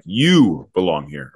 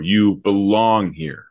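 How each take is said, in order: First: "You" punched, said slowly; slow and weighty, "You" hit first; stress on YOU. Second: "You belong here" drawn out slowly with a falling end; slow, deliberate emphasis demo; stress shifted. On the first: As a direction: lean hard on "You", then draw out the rest. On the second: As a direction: say it slow and let it fall. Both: Shown as a demonstration. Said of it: "it would change the meaning".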